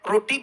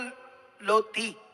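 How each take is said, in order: First: The word begins with a clear R sound. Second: The word begins with an L sound. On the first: The speaker can speak clearly. The speaker calls it right. "जैसे मान लो मैं रोटी बोलूं" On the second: The speaker has a speech impediment. The speaker calls it wrong. "अगर मैं भद्दा हूं या हकला हूं तो मैं बोलूंगा लोती"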